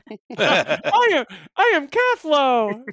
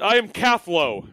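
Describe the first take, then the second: First: A squeaky put-on voice at a higher pitch. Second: A squeaky put-on voice at a lower pitch. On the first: The speaker calls it right. "No, higher pitched" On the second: The speaker calls it wrong. "she speaks in a squeaky Skittermander voice"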